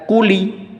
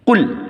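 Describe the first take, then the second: First: The word ends with an added i vowel. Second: The word ends on the l with no vowel. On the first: The speaker calls it wrong. "tidak dibaca kuli" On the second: The speaker calls it right. "bunyi lamnya mati menjadi kul"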